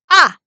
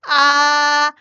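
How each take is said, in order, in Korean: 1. 짧고 세게, 소리 지르듯 터뜨리는 소리예요. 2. 음높이가 평평하게 유지돼요. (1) "화났을 때 야! 이렇게 소리 지르잖아요" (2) "일성 평평하게"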